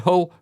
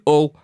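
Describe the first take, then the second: First: The word starts with a clear H sound. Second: The word starts without any H sound. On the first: "we don't say Hull" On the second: "We don't pronounce our H's where I'm from"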